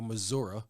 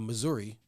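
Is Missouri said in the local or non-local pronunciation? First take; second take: local; non-local. First: The name is said in the local pronunciation. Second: The name is said in a non-local pronunciation.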